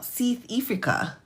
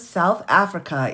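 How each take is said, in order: First: It is said in an imitated South African accent. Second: It is said in her ordinary American accent.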